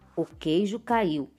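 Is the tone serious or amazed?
serious. It is said in a serious, flat tone.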